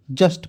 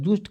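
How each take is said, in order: First: जस्ट with a short "uh" vowel; correct pronunciation. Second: जूस्ट with the u sounded "oo"; wrong pronunciation. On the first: Teacher correcting the misreading, demonstrating correct pronunciation. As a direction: say जस्ट as "jast", no oo. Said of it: "जस्ट पढ़ोगे". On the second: Teacher questioning the misreading, mimicking wrong pronunciation. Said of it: "जूस्ट क्यों पढ़ेगा". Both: Shown as a demonstration.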